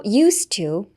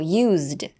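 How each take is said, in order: First: "used to" linked, with a hissed s and silent d; S sound. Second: "used" as a lone word, with a voiced z. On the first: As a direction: say "used to" as "yoos-too". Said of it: "ZじゃなくてSの発音になるんですよね". (「used to」をSの音でつなげて) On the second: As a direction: say "used" as "yoozd". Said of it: "Zで発音するんですけど". (「used」を単体のZの発音で) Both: Shown as a demonstration.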